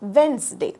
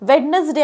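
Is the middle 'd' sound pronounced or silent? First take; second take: silent; pronounced. First: The middle d sound is left silent. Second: The middle d sound is pronounced aloud. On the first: The speaker calls it right. "उच्चार आहे" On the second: The speaker calls it wrong. "वेडनसडे आपण नाही म्हणत"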